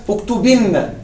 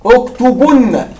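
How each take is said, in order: First: اكتبن said as "uktubinna" with an i before a doubled n; اكتبن with i, uktubinna, the n held double; with ya of the feminine. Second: اكتبن said slowly as "uktubunna" with a rounded u and a doubled n; with waw al-jama'a. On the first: Teacher gives students the feminine command form. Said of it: "مع ياء المخاطبة". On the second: Teacher drills the plural command form slowly for his students. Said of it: "مع واو الجماعة". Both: Shown as a demonstration.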